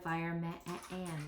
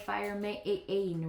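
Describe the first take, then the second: First: The second part has a short vowel, like man. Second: The second part has a long vowel, like main. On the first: The speaker calls it right. "but I have heard of fire man" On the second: The speaker calls it wrong. "does that sound right? Is that a word I've heard? No"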